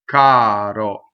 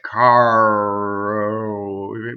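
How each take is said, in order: First: The vowels stay pure and separate, without gliding. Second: The vowels glide and blend into each other. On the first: The speaker calls it right. "But in Italian, they remain separate" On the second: The speaker calls it wrong. "in English, those those paints would be mixed"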